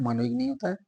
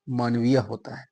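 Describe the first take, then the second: First: मानविक said high and light as the wrong form; teacher rejects मानविक, lifting the pitch on it. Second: मानवीय said low and firm as the correct form; teacher settles on मानवीय, voice dropped; right form. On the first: Teacher marking मानविक as the wrong answer, pitch lifted. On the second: Teacher giving students the correct मानवीय, lower. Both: Shown as a demonstration.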